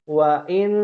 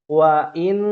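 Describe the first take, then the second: Both takes have the same delivery.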